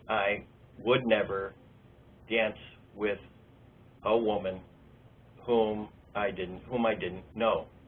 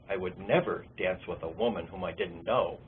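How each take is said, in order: First: It is read haltingly, with a repeated phrase. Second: It is read smoothly, like natural speech. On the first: The reader is still decoding the words. The speaker calls it wrong. "not fluent, but on the way" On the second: The reader understands the meaning. The speaker calls it right. "like natural speech"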